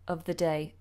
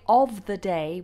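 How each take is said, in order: First: The words 'of the' are reduced with a schwa. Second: The words 'of the' are said in full form. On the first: "we'd say" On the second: "rather than saying"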